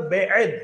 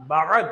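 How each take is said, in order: First: बेद read with an e sound, the wrong way. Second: बाद read with a long open a, the right way; correct reading. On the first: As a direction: say बेद as bed, the mistaken reading. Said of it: "बेद नहीं पढ़ते". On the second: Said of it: "इसको पढ़ते हैं बाद". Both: Shown as a demonstration.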